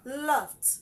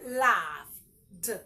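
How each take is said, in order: First: The word ends with a t sound. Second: The word ends with a d sound. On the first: The speaker calls it right. "It has a t sound at the end" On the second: The speaker calls it wrong. "Don't say laughed. It's not d"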